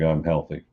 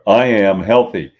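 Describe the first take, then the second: First: It is said lightly, with little energy. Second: It is said firmly, with strong energy.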